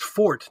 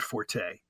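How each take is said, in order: First: The word is said as one syllable. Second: The word is said as two syllables. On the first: The speaker calls it right. "It should be pronounced fort" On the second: The speaker calls it wrong. "not forte"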